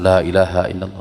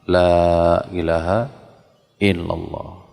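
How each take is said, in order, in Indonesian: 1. Diucapkan dengan cepat, tanpa jeda. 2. Diucapkan dengan lambat dan jelas. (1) "Jika terlalu apa? Ini tidak ada jeda di situ" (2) "Jadi perlahan, tapi sekali lagi jelas, pasti. Jangan tergesa-gesa"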